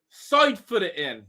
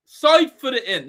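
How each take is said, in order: First: Said in the usual way. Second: Loud, higher, exasperated yell; frustrated shout. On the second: Real, not acted. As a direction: shout it at the striker in disbelief. Repeating frustrated advice at replay.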